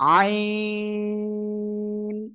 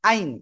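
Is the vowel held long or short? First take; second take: long; short. First: The vowel is stretched long, four counts. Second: The vowel is said short, without stretching. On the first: The speaker calls it right. "চার আলিফ টান হবে" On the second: The speaker calls it wrong. "অনেকে বলে কি আইন"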